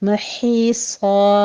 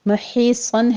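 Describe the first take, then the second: First: The word ends with a long 'a' vowel. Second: The word ends with a nasal '-an' sound.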